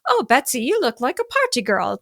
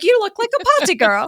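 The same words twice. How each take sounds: First: Said in the usual way. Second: Much higher, mocking British coach accent. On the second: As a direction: mimic the posh British speaking coach, pitched way up. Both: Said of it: "You know, she's British".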